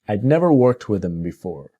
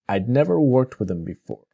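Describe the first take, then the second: First: 'I had' is shortened into one syllable, 'I'd'. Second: The same.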